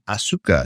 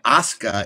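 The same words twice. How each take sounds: First: The vowel after the s is pronounced. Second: The vowel after the s is dropped. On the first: The speaker calls it wrong. "is not Asuka" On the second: The speaker calls it right. "That's why Asuka is"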